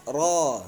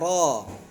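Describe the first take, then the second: First: The r is said with lips kept back. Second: The r is said with lips kept back.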